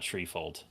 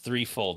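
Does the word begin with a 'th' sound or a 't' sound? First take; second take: t; th. First: The word begins with a plain 't' sound. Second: The word begins with a 'th' sound. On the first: The speaker calls it wrong. "not treefold" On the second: The speaker calls it right. "it's threefold, ... Three, as in the number three"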